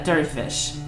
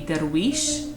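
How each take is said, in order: First: It is said the way Persian or Turkish speakers say it. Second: It is said the way Arabic speakers say it. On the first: "For a, uh, Persian or Turkish, it would be" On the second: "for an Arabic speaker, it would be"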